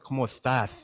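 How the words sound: The s sounds are lisped, Spain style. The speaker calls it right.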